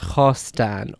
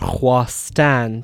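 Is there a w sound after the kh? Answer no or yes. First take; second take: no; yes. First: No w sound follows the initial kh. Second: A w sound follows the initial kh. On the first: This is the modern form of the word. "and now is pronounced" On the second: This is the older form of the word. "or were at one point pronounced as"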